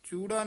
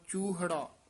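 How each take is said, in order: First: The word has no h sound in the middle. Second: The word has an h sound in the middle. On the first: The speaker calls it wrong. "ਚੂੜਾ ਨਹੀਂ ਕਹਿ ਦੇਣਾ" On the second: The speaker calls it right. "ਸਿੱਧਾ ਹੀ ਹਾਹਾ ਵੀ ਵਿੱਚ ਆ ਕੇ ਉਚਾਰਨ ਕਰਨਾ"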